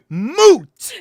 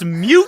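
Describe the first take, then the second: First: The vowel sounds like a plain oo. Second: The vowel sounds like the word you. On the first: The speaker calls it right. "It is moot" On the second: The speaker calls it wrong. "everyone thinks it's mute point"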